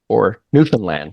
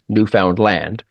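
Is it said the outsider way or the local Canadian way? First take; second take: local; outsider. First: It is said in a local Canadian accent. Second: It is said in a general outsider accent.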